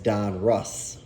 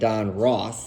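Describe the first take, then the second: First: The surname's vowel sounds like in 'bus'. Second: The surname's vowel sounds like in 'boss'. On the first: The speaker calls it right. "I guess the appropriate way is Don Russ" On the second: The speaker calls it wrong. "I guess I'm mispronouncing it by saying Don Ross"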